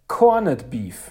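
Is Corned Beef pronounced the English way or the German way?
German. It is pronounced the German way. This is how older German speakers said the term. The speaker calls it right. "es heißt Corned Beef"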